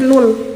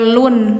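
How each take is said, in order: First: The syllable ends in an l sound. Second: The syllable ends in an n sound. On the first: The speaker calls it right. "tapi lul" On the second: The speaker calls it wrong. "Ini enggak lun ya"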